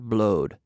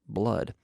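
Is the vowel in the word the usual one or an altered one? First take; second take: altered; usual. First: The word has a different, altered vowel. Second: The word has its usual vowel. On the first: The speaker calls it wrong. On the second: The speaker calls it right.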